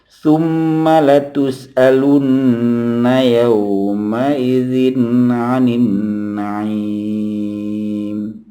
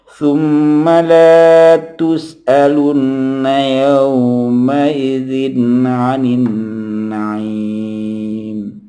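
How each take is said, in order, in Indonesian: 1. Vokal pada la dibaca pendek. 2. Vokal pada la dibaca panjang. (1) "la dibaca pendek" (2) "kalau kita baca panjang"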